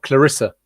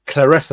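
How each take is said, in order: First: The middle vowel sounds like the one in 'bid'. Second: The middle vowel sounds like the one in 'bed'. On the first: The speaker calls it wrong. "not Clarissa" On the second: The speaker calls it right. "her name is pronounced as Claressa"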